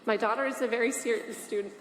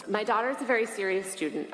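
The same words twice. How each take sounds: First: Struggling to get the words out through tears; real tears welling up mid-sentence; holding back tears. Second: Said in the usual way. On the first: Real, not acted. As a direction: voice catching as tears come. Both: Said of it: "I don't know why I'm crying that much".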